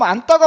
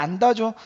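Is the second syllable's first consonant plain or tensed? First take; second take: tensed; plain. First: The second syllable starts with a tensed tt sound. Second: The second syllable starts with a plain d sound. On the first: The speaker calls it wrong. "된소리로 발음해야 되잖아요. 그럼 안다가 맞는 거 아닌가요?" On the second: The speaker calls it right. "근데 얘는 왜 그냥 안다죠?"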